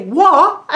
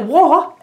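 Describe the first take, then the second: First: Higher British "What?", mock-baffled; "What?" in an attempted British accent, pitched higher as the Doctor answers back. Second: A puzzled British "What?" with a rising end; "What?" in an attempted British accent, higher and rising like a question; confused UK accent. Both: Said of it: "they talk in U K accents, and hopefully I'm doing it right".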